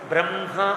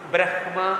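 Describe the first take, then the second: First: The nasal is said before the h sound. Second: The h sound is said before the nasal. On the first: The speaker calls it right. "అన" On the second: The speaker calls it wrong. "అనకు"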